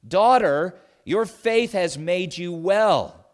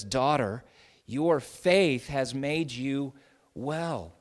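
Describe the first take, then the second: First: Daughter rings out loud and slow; proclaiming. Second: Slower, gentle, close and personal; tender. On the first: Jesus to the healed woman, ringing loud affirmation. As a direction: proclaim it like a blessing over the crowd. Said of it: "Jesus affirms the importance of her faith". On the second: Jesus tenderly assures the desperate woman, gently. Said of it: "speaking in very tender, personal terms". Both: Acted.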